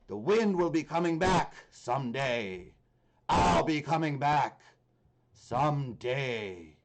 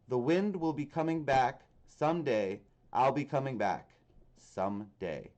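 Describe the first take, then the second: First: It is said imitating the Grinch character's voice. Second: It is read in the speaker's plain voice.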